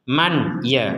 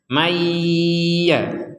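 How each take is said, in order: First: The n is pronounced clearly before the y. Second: The n merges into the y with strong nasal hum. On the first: The speaker calls it wrong. "itu jelas, dibaca dengan jelas dan itu tidak boleh" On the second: The speaker calls it right. "kita tambah unsur dengung seratus persen"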